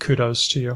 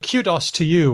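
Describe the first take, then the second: First: It is said with an American accent. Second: It is said with an Australian accent.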